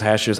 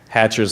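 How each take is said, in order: First: The middle consonant is an 'sh' sound. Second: The middle consonant is a 'ch' sound.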